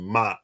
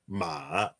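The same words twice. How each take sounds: First: The pitch falls sharply from high to low. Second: The pitch dips down and then rises. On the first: "ma is the fourth" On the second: "the third one is the dip"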